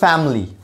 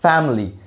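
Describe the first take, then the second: No difference in how they are said.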